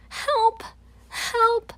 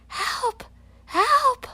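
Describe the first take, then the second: First: High, loud shouts for help; yelling too. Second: High, loud cries for help; boy stuck on a branch, yelling for help. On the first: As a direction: join in the yell, calling out. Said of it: "I yell too". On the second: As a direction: shout it out from the branch, rising in panic. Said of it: "Lionel yells". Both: Acted.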